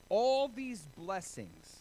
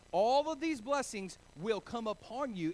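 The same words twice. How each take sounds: First: All these blessings drawn out slowly, weight on "all"; slow stress on all. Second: Louder, higher proclamation with "these" punched; emphatic reading. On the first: Pastor reading scripture to the congregation, slow and stressed. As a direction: lean on "all" and stretch every word. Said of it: "everybody say blessings". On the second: Pastor repeating the scripture to the congregation, loud and emphatic. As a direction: proclaim it with full force. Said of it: "And he says all of these blessings". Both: Shown as a demonstration.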